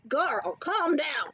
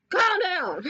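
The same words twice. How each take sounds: First: Slow, drawn-out telling-off; exasperated. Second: Higher, forceful mock telling-off; exasperated outburst. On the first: Pretend. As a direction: rein them in with stretched words. Telling imagined snobs to settle. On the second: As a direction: burst out as if reining someone in. Repeats the telling-off more forcefully.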